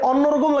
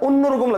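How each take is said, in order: First: The first vowel is an open 'aw' sound. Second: The first vowel is a closer 'o' sound. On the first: The speaker calls it wrong. "অন্যরকম লাগতেছে না" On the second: The speaker calls it right. "লিখছেন অ, কিন্তু উচ্চারণটা কি ও"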